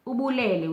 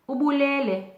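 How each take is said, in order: First: Ubulele raised moderately, then falling; tone for "he gave thanks". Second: Ubulele held very high, then falling, louder; tone for "he killed". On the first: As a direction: say ubulele higher with a fall, meaning "he gave thanks". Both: Shown as a demonstration. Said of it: "which parts of the word I emphasize".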